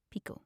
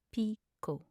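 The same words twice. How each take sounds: First: Said in the usual way. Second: Two syllables set apart. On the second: Shown as a demonstration. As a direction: pause between the syllables. Pronunciation guide, broken-down take.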